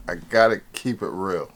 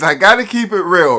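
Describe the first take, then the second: First: Said in the usual way. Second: Loud, high-pitched insistence; emphatic declaration. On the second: Real, not acted. Emphatic declaration, then repeated softly.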